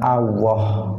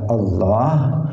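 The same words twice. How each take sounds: First: The middle consonant is a W sound. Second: The middle consonant is an L sound. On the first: The speaker calls it wrong. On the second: The speaker calls it right.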